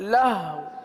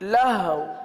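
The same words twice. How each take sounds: Both takes have the same delivery.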